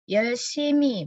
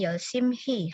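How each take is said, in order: First: The h sound is dropped, almost silent. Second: The h sound is clearly pronounced. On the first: The speaker calls it right. "hanya seolah nggak ada" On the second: The speaker calls it wrong.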